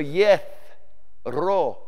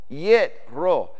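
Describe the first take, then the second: First: The consonant is a soft th sound. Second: The consonant is a plain t sound. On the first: "some people in antiquity would pronounce the tav the" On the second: "We say yet"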